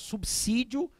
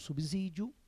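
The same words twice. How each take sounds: First: The middle consonant is a hissing s sound. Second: The middle consonant is a buzzing z sound. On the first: The speaker calls it right. "devemos falar" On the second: The speaker calls it wrong. "e não"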